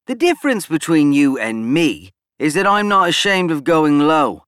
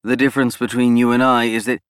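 First: Snapped out word by word, louder; staccato. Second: Said in the usual way. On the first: A narrator's reading. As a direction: clip each word sharply and fast. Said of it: "snapping out the words in a staccato-like manner". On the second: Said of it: "Cole interrupted".

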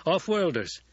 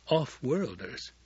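First: Higher, voiced-out character line; spoken aloud. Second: Slow, drawn-out "Off-worlders"; wondering to himself. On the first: Gurney tells Paul about new recruits, higher speaking voice. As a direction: say "Off-worlders" aloud, pitched up. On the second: Gurney hesitates at his own word, slowly wondering. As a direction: turn "Off-worlders" over slowly, as a thought. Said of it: "wondering at himself suddenly". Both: A narrator's reading.

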